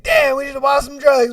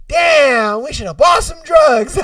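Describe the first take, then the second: First: Higher-pitched comic lament, less shouted; mock regret. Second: Loud, high comic outburst; shouted mock regret. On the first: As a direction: repeat the punchline high, short of a yell. Repeats own punchline, laughing. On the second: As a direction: yell the punchline in exaggerated regret. Acted punchline, staff regret.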